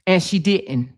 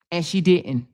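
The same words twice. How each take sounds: The two takes are said the same way.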